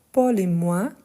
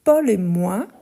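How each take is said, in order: Both takes have the same delivery.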